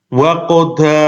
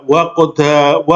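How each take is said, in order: The two takes are said the same way.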